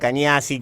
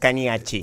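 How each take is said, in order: First: The last syllable starts with an 's' sound. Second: The last syllable starts with a 'ch' sound. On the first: This is how people usually say it. "estoy acostumbrado a Cañasi, Cagnasi, como sale" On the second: This is the original Italian pronunciation. "si lo querés decir en tano, es Cañachi"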